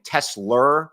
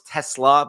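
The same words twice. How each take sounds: First: "Tesla" said the New York way, as the viewers mocked; his own New York accent on "Tesla". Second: "Tesla" in the standard way, not the New York one; corrected Tesla. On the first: Owning up to viewers who mocked his New York "Tesla". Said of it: "it's my New York accent". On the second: Setting the record straight for mocking viewers, corrected "Tesla". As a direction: carefully say "Tesla" as everyone expects. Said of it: "I know it's Tesla". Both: Shown as a demonstration.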